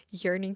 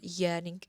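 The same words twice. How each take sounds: First: Said in the usual way. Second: YEARNING said British, with no r sound; accidental British accent. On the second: Real, not acted. Podcaster saying YEARNING about herself, accidental British accent. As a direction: slip into British on YEARNING, r dropped. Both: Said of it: "why did I go British?".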